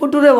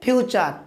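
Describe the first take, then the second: First: The middle consonant is a t sound. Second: The middle consonant is a ch sound. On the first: The speaker calls it wrong. "অনেকে ফিউচারকে ফুটুরে বলে" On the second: The speaker calls it right. "সঠিক উচ্চারণ কী হবে ফিউচার"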